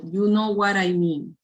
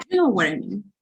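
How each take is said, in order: First: "You know what I mean" read evenly, little intonation; level, unexpressive "You know what I mean"; read-out without feeling. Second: Animated, wide-pitched "You know what I mean"; expressive intonation. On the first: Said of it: "If you read in this way". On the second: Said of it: "please use a good intonation". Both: Shown as a demonstration.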